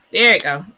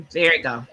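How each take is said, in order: First: "There it go" called out louder, with relief; relieved louder call. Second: Said in the usual way. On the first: Real, not acted. Host telling viewers the slide finally appeared, louder with relief. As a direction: announce it louder, glad it finally loaded. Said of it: "screen share finally loads". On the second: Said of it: "waiting for screen share".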